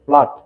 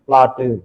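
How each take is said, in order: First: The word ends cleanly on the final consonant. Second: An extra vowel sound is added at the end.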